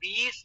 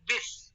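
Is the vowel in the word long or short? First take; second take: long; short. First: The vowel is drawn out long. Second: The vowel is kept short and quick. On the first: The speaker calls it wrong. "बीस नहीं कह रहे थे" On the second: The speaker calls it right. "छोटी आवाज है, जल्दी पढ़ना है"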